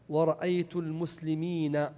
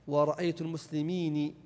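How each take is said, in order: No difference in how they are said.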